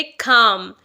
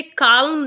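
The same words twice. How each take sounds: First: काम with a silent l, kaam; correct pronunciation. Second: काल्म with the l sounded, kalm; wrong pronunciation. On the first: Teacher showing learners the right way, silent l. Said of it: "एल यहाँ पर silent है". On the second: Teacher showing learners the mistake, l sounded in kalm. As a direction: say काल्म with a clear l before the m. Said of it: "नहीं बोलना है". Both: Shown as a demonstration.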